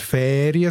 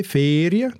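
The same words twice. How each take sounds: First: "Ferien" with a long open Ä in the first syllable; "Ferien" on a long, open first vowel; more open E. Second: "Ferien" with a long closed E in the first syllable; "Ferien" on a long, closed first vowel. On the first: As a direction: say "Ferien" as "Fääriä". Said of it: "also offener". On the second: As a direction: say "Ferien" with a tight "ee" as in "Feerie". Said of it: "ist es ein geschlossenes E". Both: Shown as a demonstration.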